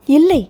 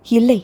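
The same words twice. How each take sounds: First: A sharper, higher second no; louder refusal. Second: Said in the usual way. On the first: A narrator's reading. Hero refusing the answers, louder denial. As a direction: push the second denial out harder. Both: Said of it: "என்றான்".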